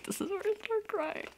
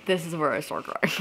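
First: Very high, soft squeal; overwhelmed, tiny high voice; tearful excitement. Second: Said in the usual way. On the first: Real, not acted. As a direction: squeak it out as if about to cry.

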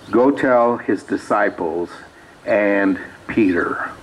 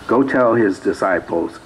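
First: Drawn out slowly, leaning hard on and Peter; slow stressed reading. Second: Said in the usual way. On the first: Acted. Preacher reading to the congregation, slowing down on and Peter. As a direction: land on "and Peter", slow and deliberate.

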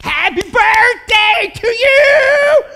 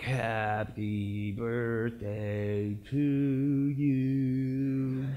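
First: Very high, very loud sung scream; all-out ecstatic birthday yell; screaming passionately. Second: Sung, very slow, low droning song; sung, drag out each note joylessly; sung, mock dreary birthday dirge; unenthusiastic singing. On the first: Acted. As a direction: belt it right in his face. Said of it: "I'm, like, screaming it out". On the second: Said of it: "you think I walk up to him".

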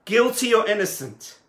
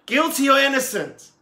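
First: Loud call to the crowd. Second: Higher, louder repeat of the question; louder call. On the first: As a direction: put the question to the whole town. Tzemach Tzedek calls to the town. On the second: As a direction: push it harder the second time. Tzemach Tzedek calls again, more urgently. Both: Acted.

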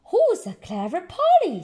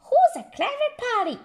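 First: Lightly voiced praising granny. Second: High, fast squawky parrot copy. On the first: Granny Pig praising her parrot. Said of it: "says Granny". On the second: Acted. Polly the parrot repeating Granny squawkily. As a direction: parrot it back quickly. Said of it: "repeats Polly Parrot".

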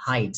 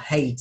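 First: "height" said to rhyme with "kite"; the right "height", vowel as in "eye"; correct height. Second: "height" said wrongly to rhyme with "hate"; the wrong "height", vowel as in "day"; mispronounced height. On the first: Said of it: "Cái này đọc là height". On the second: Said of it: "chứ không có đọc là height". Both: Shown as a demonstration.

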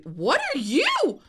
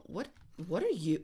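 First: Louder, higher and slower; excited call. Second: Said in the usual way. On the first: Real, not acted. Gamer spots a new dog, excited call. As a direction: call out in delight.

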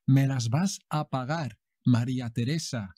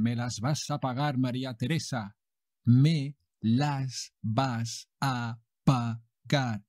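First: Said in the usual way. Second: Slow menacing soap villain threat; silky menacing villain. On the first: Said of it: "repeat for learners". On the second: Acted. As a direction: threaten her slowly, smooth as silk. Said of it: "Juan José Jesús de los Huevos goes on".

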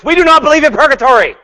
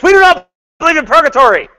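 First: High, loud, fast mock declaration; hammed-up insistent denial; mock website proclamation. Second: High, loud, fast mock yell; hammed-up yelled denial. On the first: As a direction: read it like a banner in all caps. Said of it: "They say on their websites". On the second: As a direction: shout it like bold capital letters. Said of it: "It's like they're yelling at you".

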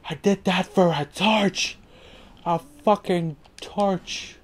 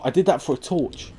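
First: High, drawn-out incredulous complaint; exasperated disbelief. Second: Said in the usual way. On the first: Real, not acted. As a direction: stretch each word in disbelief.

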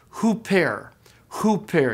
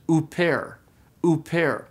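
First: Hooper with a breathy H onset; initial H sound. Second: Uper with a bare vowel onset; no H sound. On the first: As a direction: put a clear H before the oo in hooper. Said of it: "got that initial H sound". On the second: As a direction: start uper straight on the oo, no aspiration. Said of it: "didn't have a breathing mark". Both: Shown as a demonstration.

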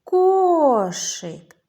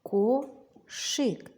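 First: Loud, high call, long KO in «Кошик». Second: «Кошик» as ko, pause, shyk; split into syllables. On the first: Teacher calls with children to find stress, «Кошик» hollered. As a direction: call «Кошик», stretching the stressed first syllable. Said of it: "Давайте погукаємо". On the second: Teacher helps children count syllables, «Кошик» split in two. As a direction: break «Кошик» into two separate beats. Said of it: "Визначимо". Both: Shown as a demonstration.

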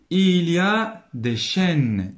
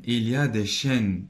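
First: "Il y a des chênes" high, loud, stretched; emphatic dictation reading. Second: Said in the usual way. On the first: Shown as a demonstration. Teacher reads the sentence to pupils, slow and emphatic. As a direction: read "Il y a des chênes" slowly and projected.

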